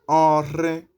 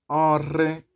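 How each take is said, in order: No difference in how they are said.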